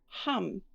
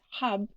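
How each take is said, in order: First: The syllable ends in an M sound. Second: The syllable ends in a B sound. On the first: The speaker calls it right. "we actually pronounce it as hum" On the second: The speaker calls it wrong. "we do not pronounce this syllable as hub"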